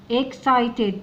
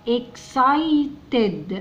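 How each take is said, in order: First: Said in the usual way. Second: "excited" slowly, in separated, stretched syllables; broken into syllables. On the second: Shown as a demonstration. Teacher sounding out "excited" for children, slow syllables.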